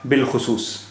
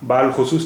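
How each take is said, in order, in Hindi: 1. अलिफ़ silent है, इसलिए छोटा 'bil' बनता है। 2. अलिफ़ को लंबे 'a' की तरह बोला जाता है। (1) "अलिफ यहाँ प्रोनाउंस नहीं हो रहा है" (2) "इसे बाल खुसूस नहीं पढ़ेंगे"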